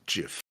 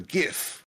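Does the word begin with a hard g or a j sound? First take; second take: j; hard g. First: The word begins with a j sound. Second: The word begins with a hard g sound. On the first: The speaker calls it wrong. "Some people wrongly pronounce it" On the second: The speaker calls it right. "I am of the Gif"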